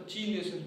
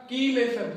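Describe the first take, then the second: First: चीलेशन said softly with a CH opening; चीलेशन starting like "cheese"; common mispronunciation. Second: कीलेशन with a hard K opening, "kee-lay-shun"; teacher's model reading of कीलेशन with "kee"; correct pronunciation. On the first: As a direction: say चीलेशन lower, as "chee-lay-shun". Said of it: "मैं भी बोलता था पहले से". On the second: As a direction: start कीलेशन on a K, not a CH. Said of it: "सही बोलने का तरीका". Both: Shown as a demonstration.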